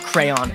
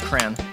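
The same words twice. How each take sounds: First: The word is said with two syllables. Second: The word is said with one syllable. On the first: The speaker calls it wrong. "It's not crayon" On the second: The speaker calls it right. "It's one syllable"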